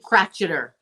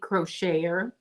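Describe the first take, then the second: First: The middle consonant is a hard 'ch' sound. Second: The middle consonant is a soft 'sh' sound.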